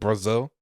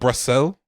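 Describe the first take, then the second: First: The middle consonant is a Z sound. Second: The middle consonant is an S sound. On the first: The speaker calls it right. "they said Brazil" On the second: The speaker calls it wrong. "instead of Brazil"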